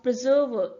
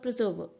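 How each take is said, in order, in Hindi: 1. इसे पूर्ण स्वरों और अधिक बलाघात के साथ बोला जाता है। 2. इसे छोटे स्वरों और कम बलाघात के साथ बोला जाता है। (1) "हम प्रिजर्व बोलते हुए एक्सेंचुएशन का यूज करते हैं" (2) "शॉर्ट वोवेल्स की तरह प्रोनाउंस कर दिया जाता था"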